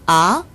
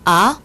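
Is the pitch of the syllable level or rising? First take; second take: rising; rising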